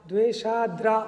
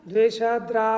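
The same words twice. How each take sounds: The two takes are said the same way.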